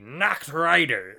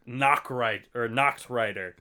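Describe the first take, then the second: First: It is said in a put-on pirate voice. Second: It is said in a normal voice. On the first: The speaker calls it right. "Yeah, that was better" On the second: The speaker calls it wrong. "it would have been way cooler if you had said that in the Pirate"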